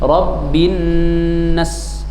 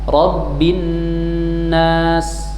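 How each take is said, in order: First: The vowel in nas is cut very short. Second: The vowel in nas is held for two counts. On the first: The speaker calls it wrong. "Kalau dibaca seperti ini Rabbin nas berarti salah" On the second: The speaker calls it right. "Kalau dibaca dua harokat Rabbin nas benar"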